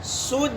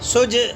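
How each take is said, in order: First: The final j ends cleanly without a bounce. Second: The final j ends with an echoing bounce. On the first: The speaker calls it right. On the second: The speaker calls it wrong.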